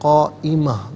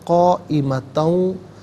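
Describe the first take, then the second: First: The word ends on a long a vowel. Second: The word ends with an n sound. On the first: The reader stops after this word. "जब वक्फ़ करेंगे रुकेंगे तो" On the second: The reading continues into the next word. "इसे वाव के साथ मिलाकर वाव की आवाज़ को अदा किया जाएगा"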